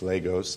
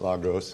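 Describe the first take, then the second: First: The name is pronounced the Nigerian way. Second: The name is pronounced the Spanish way. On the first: The speaker calls it right. "This is a Nigerian word. It's Lagos" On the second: The speaker calls it wrong. "It's not a Spanish word"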